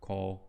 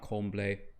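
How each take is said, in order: First: The internal M sound is left out. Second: The internal M sound is clearly pronounced. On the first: The speaker calls it right. "the proper way is tourne, couple" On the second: The speaker calls it wrong. "Not comble"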